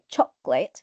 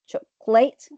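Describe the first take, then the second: First: The stress is on the first syllable. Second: The stress is on the third syllable. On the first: The speaker calls it right. "this is the right one according to the dictionary" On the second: The speaker calls it wrong. "If you stress the third syllable, ... which is incorrect again"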